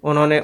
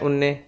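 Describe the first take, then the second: First: The word is said in its full form. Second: The word is said in a shortened form.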